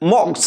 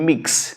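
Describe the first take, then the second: First: The word is said with an 'o' vowel. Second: The word is said with an 'i' vowel. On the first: "this is मॉक्स" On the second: "और मिक्स okay whatever you can say either of them"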